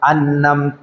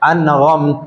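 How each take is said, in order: First: An n sound is said before amta. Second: A raspy gh sound is said before amta. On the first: "ഈ നൂനിന്റെ ശബ്ദത്തോട് കൂടെ" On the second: "ഗൈന് കൊടുത്ത് ഓതുന്ന"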